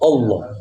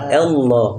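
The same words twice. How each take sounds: First: The first vowel sounds like a rounded o. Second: The first vowel sounds like an open a. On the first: The speaker calls it wrong. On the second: The speaker calls it right. "Padahal a"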